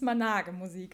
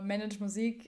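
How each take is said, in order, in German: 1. Das erste Wort wird deutsch ausgesprochen. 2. Das erste Wort wird englisch ausgesprochen.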